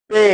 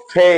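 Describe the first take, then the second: First: পে with a plain, unaspirated p; old unaspirated P. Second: ফে opening on an airy ph; new aspirated P. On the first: Teacher showing learners the old way, plain p in পে. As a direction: say পে with no puff of air. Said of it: "আগে আমরা উচ্চারণ করেছি". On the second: Teacher showing learners the new way, aspirated ph in ফে. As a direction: say ফে with a puff of air at the start. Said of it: "এখন করব". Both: Shown as a demonstration.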